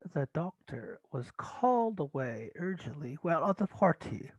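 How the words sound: It is said in an attempted British accent. "I was trying to do it in a B B C accent"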